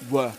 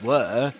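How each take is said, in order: First: The vowel is reduced to a schwa. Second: The vowel is a full, clear vowel. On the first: "were with a schwa" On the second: "rather than were"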